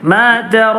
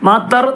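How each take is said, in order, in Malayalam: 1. അവസാന സ്വരം നീട്ടിപ്പറയുന്നു. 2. അവസാന സ്വരം ചുരുക്കി നിർത്തുന്നു. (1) "അവിടെ നീട്ടാനുണ്ട് അവസാനം" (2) "മാത്തർ എന്ന് പറയരുത്"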